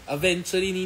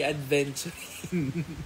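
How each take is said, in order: First: It is said without a d before v. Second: It is said with a d before v. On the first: The speaker calls it right. "Aventuring, hindi adventuring" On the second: The speaker calls it wrong. "hindi adventuring"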